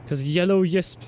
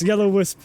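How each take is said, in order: First: "yisp" said with a Y sound in place of W; yisp pronunciation. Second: "wisp" said with a normal W sound; wisp pronunciation. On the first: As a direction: say "yellow yisp" starting the word with a Y. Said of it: "Well, no, it'd be yisps". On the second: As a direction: say "yellow wisp" the usual way, starting with W. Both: Shown as a demonstration.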